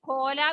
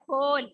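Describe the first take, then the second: First: The word ends with an added vowel sound. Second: The word ends on a bare l consonant. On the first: The speaker calls it wrong. "ഖോല എന്നല്ല വായിക്കേണ്ടത്" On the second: The speaker calls it right. "അവിടെ ചില്ലക്ഷരമായിട്ടാണ് വരിക"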